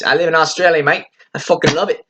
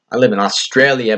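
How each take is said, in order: First: Higher-pitched put-on Aussie accent; Australian accent. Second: Said in the usual way. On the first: Proud local saying where they live, Australian accent. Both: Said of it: "hopefully that was a good accent".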